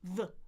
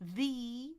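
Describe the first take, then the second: First: The vowel is a relaxed schwa sound. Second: The vowel is a full ee sound. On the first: "I can say uh, uh, the, the. That's what we call schwa" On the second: "I can totally say e, e, the"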